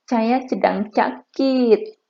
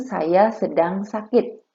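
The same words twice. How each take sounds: First: It is said in a spoiled, babyish voice. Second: It is said in a normal voice.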